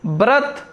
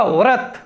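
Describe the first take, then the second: First: व्रत begun with b, brat; wrong pronunciation. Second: व्रत begun with v, vrat; correct pronunciation. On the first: Teacher showing the faulty form, wrong pronunciation. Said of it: "ये अशुद्ध है". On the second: Teacher answering with the right form, correct pronunciation. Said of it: "व्रत की जगह क्या होगा?". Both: Shown as a demonstration.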